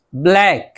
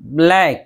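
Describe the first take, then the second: No difference in how they are said.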